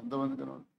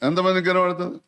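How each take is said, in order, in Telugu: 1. స్వరం దూరంగా, మసకగా వినిపిస్తోంది. మైకు వాడలేదు. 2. స్వరం దగ్గరగా, గట్టిగా, స్పష్టంగా వినిపిస్తోంది. మైకు వాడినట్టు ఉంది. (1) "ఇప్పుడు మైకు లేకుండా చెప్తున్నా" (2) "ఇప్పుడు మైకు తోటి చెప్తున్నా"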